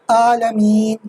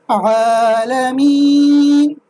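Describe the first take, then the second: First: The Ain sound is pronounced carelessly. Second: The Ain sound is pronounced carefully. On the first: The speaker calls it wrong. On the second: The speaker calls it right.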